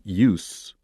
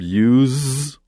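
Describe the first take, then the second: First: The word ends with a hissing S sound. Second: The word ends with a buzzing Z sound. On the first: It is used as a noun. "but as a noun" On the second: It is used as a verb. "as a verb"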